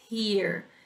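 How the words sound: It is said with an American accent. "e temos o americano"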